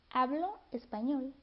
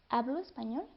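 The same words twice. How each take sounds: First: The final o is a full separate vowel. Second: The final o is reduced to a glide. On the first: "cuando decimos hablo español" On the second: "en realidad suena como hablo español, y se pierde este sonido de la O"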